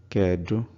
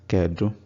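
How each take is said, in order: No difference in how they are said.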